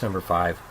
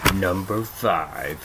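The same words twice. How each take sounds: First: It is said in a plain, ordinary voice. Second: It is said in a put-on reviewer voice. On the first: "How about just number five?" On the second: "Why did I just say it like that? ... he talks like that"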